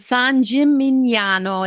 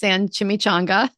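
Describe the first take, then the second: First: The second word is said as gimignano. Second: The second word is said like chimichanga. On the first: The speaker calls it right. "It's got the G N" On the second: The speaker calls it wrong. "My mom says San Chimichanga. My mom kills Italian. It's so bad"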